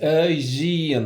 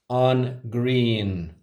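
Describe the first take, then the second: First: The noun starts slender, lenited, and ends broad. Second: The noun starts broad, unlenited, and ends slender. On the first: The speaker calls it right. "the correct way to say it is Aegean" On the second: The speaker calls it wrong. "they say on green"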